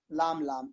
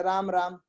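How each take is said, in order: First: "लाम लाम" with L in place of R; lower, softer "लाम लाम", R replaced by L; small child's lisp. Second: Said in the usual way. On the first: Shown as a demonstration. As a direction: demonstrate a toddler turning "राम" into "लाम". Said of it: "छोटे बच्चे". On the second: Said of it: "रा को ला बोलते हैं".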